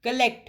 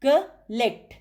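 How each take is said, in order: First: Said in the usual way. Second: "collect" in two beats, col, pause, lect; broken into syllables. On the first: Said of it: "आपने word बोलना है". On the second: Shown as a demonstration. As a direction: split "collect" after the first syllable. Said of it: "फिर उसके syllables निकालने हैं". ("collect" को दो हिस्सों में, बीच में रुककर)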